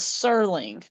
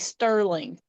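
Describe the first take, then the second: First: The name has no T sound after the S. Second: The name has a T sound after the S. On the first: The speaker calls it right. "but it's Sterling" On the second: The speaker calls it wrong. "want to say Sterling"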